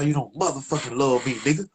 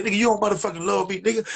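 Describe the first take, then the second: First: Said in the usual way. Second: High, fast furious rant; angry rant. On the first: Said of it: "I say". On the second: Retold or imitated. Tree yelling at his friend on the phone, high angry rant. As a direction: tear into him, pitched up and quick. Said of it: "I said".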